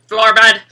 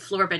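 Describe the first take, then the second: First: It is said in a loud, robotic voice. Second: It is said in a normal, plain voice.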